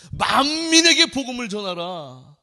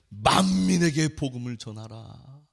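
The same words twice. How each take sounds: First: 만민에게 raised and louder, pressed hard; emphatic repeat. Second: Said in the usual way. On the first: Shown as a demonstration. Pastor repeats the command to the congregation, emphatic. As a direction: proclaim 만민에게 with force.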